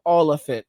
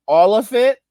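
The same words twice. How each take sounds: First: Said in the usual way. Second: A high, pointed 'All of it?'; incredulous question. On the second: Pretend. Challenging the boomer about the missing money, higher incredulous question. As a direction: challenge them in disbelief. Mock exchange with greedy boomer.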